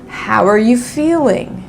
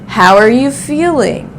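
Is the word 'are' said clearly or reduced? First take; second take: reduced; reduced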